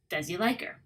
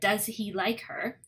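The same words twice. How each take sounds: First: The words are pushed together into one flow. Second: Each word is said separately and clearly.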